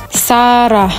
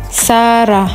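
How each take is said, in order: Both takes have the same delivery.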